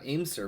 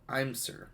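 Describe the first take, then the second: First: The name begins with an 'aim' sound. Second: The name begins with an 'I'm' sound. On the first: The speaker calls it wrong. "not Aim Sir" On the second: The speaker calls it right. "but I'm Sir"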